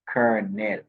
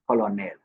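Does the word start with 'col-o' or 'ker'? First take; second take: ker; col-o. First: The word starts with 'ker' like kernel. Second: The word starts with 'col-o' as spelled. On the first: The speaker calls it right. "It's pronounced the word uh, kernel" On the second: The speaker calls it wrong. "is not pronounced colonel. That's incorrect"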